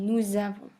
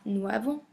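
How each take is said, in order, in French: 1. Une consonne de liaison relie les deux mots. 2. Aucune consonne ne fait la liaison entre les deux mots. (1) "mais nous avons" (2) "ne devient pas nous avons"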